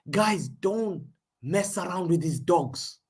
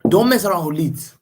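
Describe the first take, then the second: First: Slow, deliberate warning; heated slow warning to the chat. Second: "Leeds" in a louder, firm warning; corrected warning, louder; louder restated warning. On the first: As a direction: spell out "don't mess around with these dogs" slowly. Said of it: "Sorry, I didn't say dogs". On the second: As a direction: say it loud and firm. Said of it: "I didn't say dogs, but players". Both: Real, not acted.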